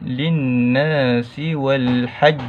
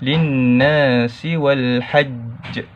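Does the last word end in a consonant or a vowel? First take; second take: consonant; consonant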